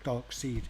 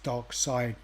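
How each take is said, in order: First: The second part rhymes with 'reed'. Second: The second part rhymes with 'ride'. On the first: This is how many American reviewers say it. "not Dark Seed" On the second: This is the speaker's usual British pronunciation. "I've always pronounced it as Dark Side"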